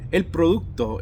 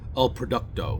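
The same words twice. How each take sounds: First: It is said with a Spanish pronunciation. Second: It is said with an English pronunciation. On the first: The speaker calls it right. "it was a Spanish word" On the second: The speaker calls it wrong. "they never pronounced the name of the brand correctly. They always said"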